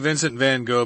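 The name is said with an American pronunciation. "we're going to say Vincent Van Gogh because we are Americans"

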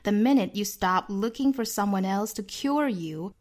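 It is spoken with an American accent. "美音呢我们注意"

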